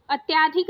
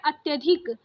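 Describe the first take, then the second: First: अत्याधिक with a long aa after ty; wrong long middle vowel. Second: अत्यधिक with a short a after ty; correct short middle vowel. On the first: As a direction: say अत्याधिक as "at-yaa-dhik". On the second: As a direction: say अत्यधिक as "at-yuh-dhik". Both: Shown as a demonstration. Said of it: "नहीं होता है".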